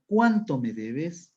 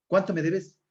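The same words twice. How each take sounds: First: Slow, CUÁNTO leaned on, rising end; question intonation. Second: Said in the usual way. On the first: Shown as a demonstration. Teacher corrects the casual version, emphatic question intonation. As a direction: lean hard on "cuánto" and lift the ending. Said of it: "la entonación es importante al momento de formular preguntas". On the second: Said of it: "no sería lo mismo decir".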